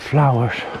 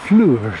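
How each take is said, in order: First: It is said in the speaker's ordinary accent. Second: It is said in a Scottish accent.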